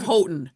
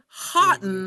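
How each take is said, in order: First: "Houghton" said as "HOE-tun"; correct Houghton. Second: "Houghton" said as "HOT-un"; mispronounced Houghton. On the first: Listener giving the local pronunciation, Houghton as "HOE-tun". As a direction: say "Houghton" with a long o. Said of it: "instead of". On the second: Listener quoting audiobook reader's mistake, Houghton as "HOT-un". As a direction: say "Houghton" with a short "hot" vowel. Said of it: "she said". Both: Shown as a demonstration.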